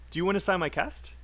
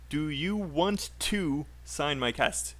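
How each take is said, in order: First: 'Want to' is reduced and linked into 'wanna'. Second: Both words of 'want to' are said separately. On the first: The speaker calls it right. "We say, do you wanna?" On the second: The speaker calls it wrong. "we don't say want to. ... We don't speak like that"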